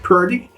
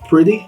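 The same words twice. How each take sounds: First: Two sounds are swapped from their usual order. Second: The sounds are in their usual order. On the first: "people say" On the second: "instead of"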